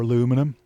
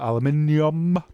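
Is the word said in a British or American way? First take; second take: American; British. First: It is said the American way. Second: It is said the British way.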